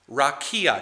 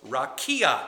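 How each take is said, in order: First: Rakia said RAH-kee-ah with a falling end; repeating rakia. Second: Rakia said RAH-kee-ah, three syllables; pronouncing rakia. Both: Shown as a demonstration. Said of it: "It's pronounced rakia".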